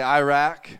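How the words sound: Iraq is said with an American pronunciation. The speaker calls it wrong. "dumb Americans say Iraq"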